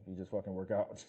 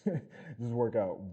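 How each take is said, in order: First: Said in the usual way. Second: Slow, louder, laughing through work out; laughing repeat. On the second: Real, not acted.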